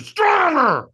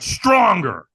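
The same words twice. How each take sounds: First: Very high, loud coach's scream; screamed command. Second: Loud, raised-pitch coaching; urging command. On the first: Trainer in a firewalker's face, screaming. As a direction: scream it right into their face. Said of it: "screamed at me". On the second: Trainer demanding more from firewalker, urging command. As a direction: push them with a firm call. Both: Retold or imitated.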